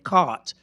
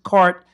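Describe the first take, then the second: First: The r after the vowel is dropped. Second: The r after the vowel is clearly pronounced. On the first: This is how it came to be said later. "the British stopped pronouncing their R's in particular after a vowel" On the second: This is how it was said in early colonial times. "they used to pronounce their R's"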